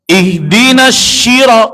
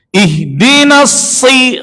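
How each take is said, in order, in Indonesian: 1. Kata itu diawali dengan bunyi 'sh'. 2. Kata itu diawali dengan bunyi 's'. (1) "Huruf so diganti huruf shin. ... salah" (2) "Harusnya sh bukan sy. ... si biasa aja"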